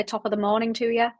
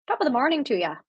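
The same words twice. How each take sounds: First: Said in the usual way. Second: Put-on Irish accent. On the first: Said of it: "And then Irish people say". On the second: Streamer testing what Irish people say, attempted Irish accent. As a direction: try out an Irish greeting in a lilting accent. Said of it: "did that sound a bit Irish?".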